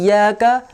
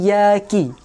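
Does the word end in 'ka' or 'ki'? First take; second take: ka; ki. First: The word ends with the sound 'ka'. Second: The word ends with the sound 'ki'. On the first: The speaker calls it right. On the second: The speaker calls it wrong.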